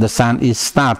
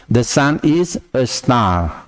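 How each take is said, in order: First: Said in the usual way. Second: "the sun is a star" slow, with "a" clear; slow correct take. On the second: Shown as a demonstration. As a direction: slowly give the right version with a. ("the sun is a star" pelan, a jelas)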